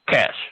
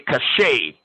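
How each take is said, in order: First: The word has one syllable, like 'cash'. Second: The word has two syllables, ending in 'shay'. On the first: The speaker calls it right. "it's actually cash, like like C A S H" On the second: The speaker calls it wrong. "Some people say cachet"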